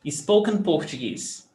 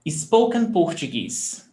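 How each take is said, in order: No difference in how they are said.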